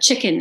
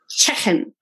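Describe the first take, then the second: First: It is said in a mild southern English accent. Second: It is said in a Liverpool accent. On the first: The speaker calls it wrong. "I was like chicken" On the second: The speaker calls it right. "he's like no chicken. He's like, you kick him in the head"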